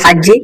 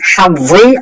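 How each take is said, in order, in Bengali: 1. মাঝের ব্যঞ্জনটি দ্বিত্ব j ধ্বনি। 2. মাঝের ব্যঞ্জনটি স্পষ্ট z ধ্বনি। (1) "হাজ্জি বললে হবে না" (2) "জ জয়ের উচ্চারণটা ক্লিয়ারলি করবেন"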